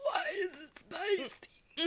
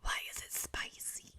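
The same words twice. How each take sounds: First: Slow, high, eerie possessed wail; demon voice. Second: Breathy whisper instead of a demon voice; whispered attempt. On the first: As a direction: drag it out like a possessed spirit. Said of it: "That was perfect". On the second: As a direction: try it in a whisper. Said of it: "I can't do the demon voice for that". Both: Shown as a demonstration.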